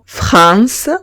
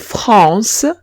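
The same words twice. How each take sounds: First: The a and the n are pronounced separately. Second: The a and n merge into one nasal vowel. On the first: The speaker calls it wrong. "la pronuncian como en español" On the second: The speaker calls it right. "pronuncio A N como un único sonido que es on"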